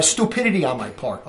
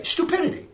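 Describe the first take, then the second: First: Said in the usual way. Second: Stupidity said much higher and quieter, as a self-mocking repeat; echoing his own word back in self-mockery, Stupidity pitched high; stress on Stupidity. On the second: Shown as a demonstration. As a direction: lift Stupidity high and soft, mocking yourself.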